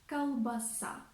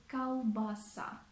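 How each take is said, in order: No difference in how they are said.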